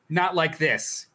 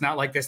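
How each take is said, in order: First: It is said in a defiant, heroic way. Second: It is said in a defeated, despairing way. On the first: The character is going out like a hero. The speaker calls it right. "going out like a hero" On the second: The character is being destroyed. The speaker calls it wrong. "the way that other people read it was the incorrect way"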